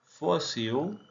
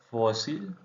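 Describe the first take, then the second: First: "Fósil" ending in u, fosiu; Portuguese "Fósil", final l vocalized to u; Portuguese pronunciation. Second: Said in the usual way. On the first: Shown as a demonstration. Teacher shows learners the Portuguese form, l as u. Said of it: "Fósil /fosiu/ vs /fosil/". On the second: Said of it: "Fósil /fosil/".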